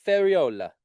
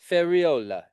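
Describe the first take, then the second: First: "Ferriola" said higher with an Italian accent, rolling the r and leaning on "o". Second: Said in the usual way. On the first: Shown as a demonstration. Getting an agent's name right, asking Giovanna, in an Italian accent. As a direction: give "Ferriola" an Italian lilt, pitched up. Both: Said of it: "You gotta say it with an Italian accent".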